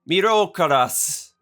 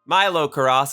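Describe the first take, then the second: First: The name is said with Japanese-style sounds. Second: The name is said with American English sounds. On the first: "technically, it would be pronounced" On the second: "how I pronounce it as the English-speaking American that I am"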